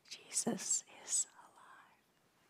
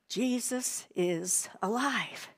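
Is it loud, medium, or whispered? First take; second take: whispered; loud. First: It is whispered very softly. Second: It is said loudly.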